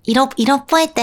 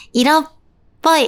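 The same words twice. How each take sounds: First: Said in the usual way. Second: 色っぽい with the pitch rising like a Chinese second tone. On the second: Shown as a demonstration. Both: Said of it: "あーんって色っぽいじゃなくて".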